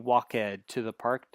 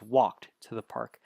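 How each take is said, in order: First: The -ed ending is said as a separate syllable. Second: The -ed ending joins the verb in one syllable. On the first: The speaker calls it wrong. "That is wrong" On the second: The speaker calls it right. "It's walked to the park"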